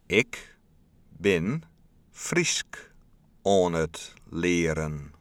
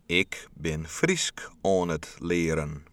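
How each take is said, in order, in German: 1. Der Satz wird sehr langsam gesprochen. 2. Der Satz wird etwas langsamer gesprochen. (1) "Nun noch langsamer" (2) "ein kleines bisschen langsamer"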